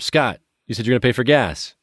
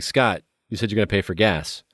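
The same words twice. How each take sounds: First: It is said more loudly. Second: It is said at normal volume.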